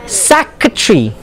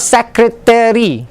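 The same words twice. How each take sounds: First: "secretary" squeezed to "SEK-ruh-tree"; "secretary" in three syllables; native pronunciation. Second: "secretary" stretched to "sek-ruh-TEH-ree"; Malaysian-style "sek-ruh-teh-ree" for "secretary"; added syllable. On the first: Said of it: "not like how you pronounce it". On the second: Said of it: "It's not secretary". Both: Shown as a demonstration.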